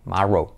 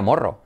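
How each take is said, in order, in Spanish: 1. La primera vocal suena como una 'a'. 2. La primera vocal suena como una 'o'. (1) "esa O es como una A" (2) "nadie se le ocurre decir Morrow"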